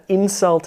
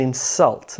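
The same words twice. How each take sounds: First: INsult, lighter second syllable; stress on first syllable. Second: InSULT, light first syllable; stress on second syllable. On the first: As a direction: insult as a noun, IN strong. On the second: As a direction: insult as a verb, SULT strong. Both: Shown as a demonstration. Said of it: "the shift in syllable stress".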